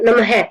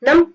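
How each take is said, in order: First: The word ends with an added breathy h sound. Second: The word ends without any h sound. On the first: "हम उच्चरित करेंगे नम है" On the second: "इसको क्या बोलेंगे नम"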